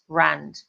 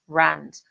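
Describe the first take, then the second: No difference in how they are said.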